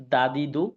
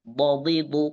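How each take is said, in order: First: Said in the usual way. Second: "বদিদু" as three heavy, thickened d syllables, do-di-du; longer, fuller d sounds in "বদিদু"; দদ উচ্চারণ. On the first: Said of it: "আমি আগে দাল উচ্চারণ করবো". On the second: Shown as a demonstration. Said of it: "এরপর দদ উচ্চারণ করবো". ("বদিদু" দদের মোটা উচ্চারণে)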